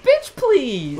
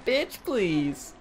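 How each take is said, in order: First: High loud sassy bitch please. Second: Quieter sassy bitch please; softer sassy bitch please. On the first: Host acting out the face, high loud sass. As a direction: snap it like a diva. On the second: Host repeating the face, softer sass. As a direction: drop it with a sneer, softer. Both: Pretend.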